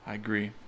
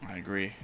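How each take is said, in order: Both takes have the same delivery.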